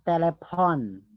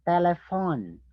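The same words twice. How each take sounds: First: The ph is said as a p sound. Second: The ph is said as an f sound. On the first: The speaker calls it wrong. "not telephone" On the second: The speaker calls it right.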